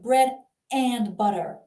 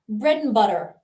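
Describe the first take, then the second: First: The word 'and' is said fully and separately. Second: The word 'and' is reduced and run together. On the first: "You don't have to say" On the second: "when we're speaking quickly is simply mm"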